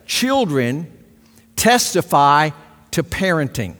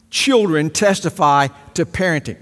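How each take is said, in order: First: Each word set apart with pauses. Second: Said in the usual way. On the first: Shown as a demonstration. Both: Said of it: "here's what God is saying".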